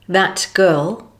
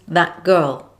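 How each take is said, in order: First: The final T is fully pronounced. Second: The final T is dropped with a glottal stop.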